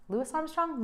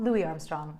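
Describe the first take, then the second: First: "Louis" with the final s sounded, pitched higher; questioning pronunciation. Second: "Louis" said as LOO-ee, silent final s; French-style name. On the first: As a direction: say "Louis" as LOO-iss, questioning. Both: Shown as a demonstration. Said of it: "I'm trying to make him French".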